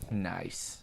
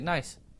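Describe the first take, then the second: First: It is drawn out in a weird, creepy tone. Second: It is said quickly and casually, in passing. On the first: The joke is leaned into suggestively. "say it like in like the weird creepy way" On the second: The joke is acknowledged without dwelling on it. "do you just want to pass it by, just be like nice"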